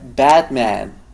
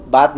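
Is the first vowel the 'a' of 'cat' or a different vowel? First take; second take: cat 'a'; different vowel. First: The first vowel is the open 'a' of 'cat'. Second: The first vowel is a different, non-'cat' vowel. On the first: The speaker calls it right. "yo diría Batman" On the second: The speaker calls it wrong. "No digo Batman"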